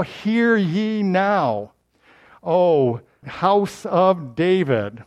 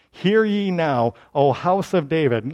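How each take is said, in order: First: Slow, drawn-out herald call; official proclamation. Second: Said in the usual way. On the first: Shown as a demonstration. Preacher proclaiming Isaiah's address to David's house, slowly. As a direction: proclaim it like a royal crier. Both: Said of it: "you see how he's getting official now?".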